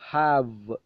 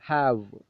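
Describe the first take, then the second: The two takes are said the same way.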